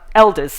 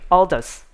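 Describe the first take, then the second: First: The name is said with an American pronunciation. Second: The name is said with a British pronunciation. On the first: "in uh, Amer- American English" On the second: "the proper way of pronouncing in British way"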